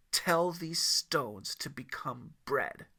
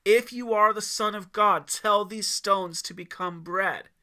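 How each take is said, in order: First: Slow, deliberate challenge; slow demand. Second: Loud, high declared challenge; announced challenge. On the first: Devil daring Yeshua, slow and deliberate. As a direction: lay down the dare slowly. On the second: Devil announcing his challenge to Yeshua, loud. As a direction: proclaim the dare. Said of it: "announced his challenge one more time". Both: A narrator's reading.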